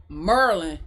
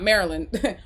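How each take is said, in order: First: "Maryland" squashed to MURR-lin; local Maryland pronunciation. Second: Said in the usual way. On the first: Retold or imitated. Streamer imitating how locals talk, "Maryland" as "Murlin". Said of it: "Not Maryland". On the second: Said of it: "I'm sorry, Maryland".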